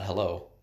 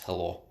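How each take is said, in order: First: The word is said with an English accent. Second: The word is said with a Russian accent. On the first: "it's not hello" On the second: "when a Russian says that"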